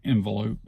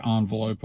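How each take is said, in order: First: Envelope starting "IN"; own pronunciation. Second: Envelope starting "ON"; rejected pronunciation. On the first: Speaker showing their own way, envelope as IN-velope. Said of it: "I say envelope". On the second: Speaker showing what they don't say, envelope as ON-velope. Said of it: "I don't say envelope". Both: Shown as a demonstration.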